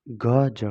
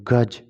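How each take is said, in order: First: गज sounded out as two syllables, "ga-ja"; pronunciation demo. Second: Said in the usual way. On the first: Shown as a demonstration. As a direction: draw out गज so the final "a" is heard. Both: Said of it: "उच्चारण के through कर लेना है".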